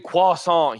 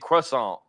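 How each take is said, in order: First: It is said in a French way. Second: It is said with a strong American R. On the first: The speaker calls it wrong. "we don't say croissant here" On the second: The speaker calls it right. "We say croissant. We pronounce our R's"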